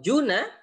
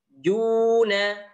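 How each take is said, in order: First: The first vowel is short and quick. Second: The first vowel is held long.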